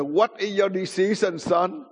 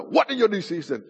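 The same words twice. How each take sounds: First: Higher-pitched demand, not yet yelled; imitated stern question. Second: Higher, sharper repeated demand; mock yell, pitch jumping up at the start; imitated louder yell. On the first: Grandfather questions his sleepy grandson, firm and raised. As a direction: put the question to him firmly. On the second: Grandfather to half-awake grandson, mild imitated yell. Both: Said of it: "he yelled louder".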